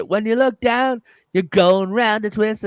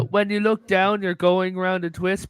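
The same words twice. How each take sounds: First: "When you look down, you're going round a twist" sung higher in an Australian accent; light sung Australian accent imitation. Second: Said in the usual way. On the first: Shown as a demonstration. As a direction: croon the line with an Australian accent, pitched up. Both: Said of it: "but it was sung in an Australian accent".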